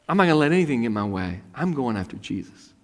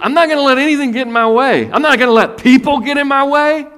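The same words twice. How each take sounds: First: Said in the usual way. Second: Shouted, high, fierce resolve; loud determined vow. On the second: Acted. Woman's determined vow, acted.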